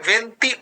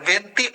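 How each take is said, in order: Both takes have the same delivery.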